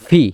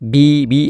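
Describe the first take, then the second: First: It begins with a v sound. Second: It begins with a b sound. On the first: The speaker calls it right. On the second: The speaker calls it wrong.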